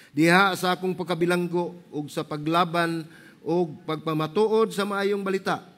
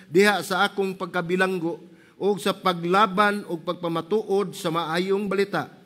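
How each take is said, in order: Both takes have the same delivery.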